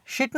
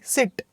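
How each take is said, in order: First: शिट starting with sh in place of s; wrong sh sound. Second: सिट starting with a plain s; correct s sound. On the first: Teacher showing students the mistake to avoid, sh sound. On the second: Teacher correcting the word for students, s sound. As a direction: open सिट on s, short i. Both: Shown as a demonstration. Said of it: "शिट नहीं, सिट".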